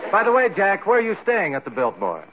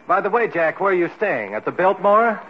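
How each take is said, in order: First: It runs on without a break before 'at the Biltmore'. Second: A break comes before 'at the Biltmore', a separate question.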